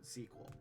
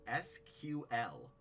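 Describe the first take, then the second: First: It is said as one word, like sequel. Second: It is spelled out as three separate letters. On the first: "non-standard pronunciation, like the word" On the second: "the official pronouncing for S Q L"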